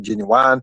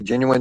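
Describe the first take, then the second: First: The word is said long and drawn out. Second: The word is said short and plain. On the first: "it goes longer, it goes further, and it grabs the attention more" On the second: "they don't just say genuine"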